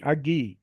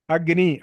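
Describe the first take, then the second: First: అగ్గి said with double g, no n; dropped n sound. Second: Said in the usual way. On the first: Shown as a demonstration. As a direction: let the n fall out of అగ్గి. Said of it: "ఆ నకారం పోతుంది". (నకారం పోయి "అగ్గి" అని పలకడం) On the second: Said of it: "అగ్ని అనమంటే".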